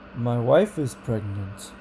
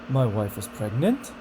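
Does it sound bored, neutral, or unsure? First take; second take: neutral; unsure. First: It is neutral, rising slightly then falling back. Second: It sounds unsure, with the pitch going up.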